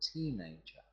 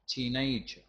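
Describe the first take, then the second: First: The stress is on the first syllable. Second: The stress is not on the first syllable. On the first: The speaker calls it right. "We've got the stress on the teen" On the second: The speaker calls it wrong. "So many people mispronounce that word and say teenager"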